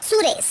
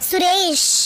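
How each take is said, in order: First: The ending is said lightly without effort. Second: The ending is said with clear emphasis. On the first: The speaker calls it wrong. "એકદમ એફર્ટલેસલી જ બોલવું છે" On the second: The speaker calls it right. "ભાર આપો તમે તમારા નામની પાછળ"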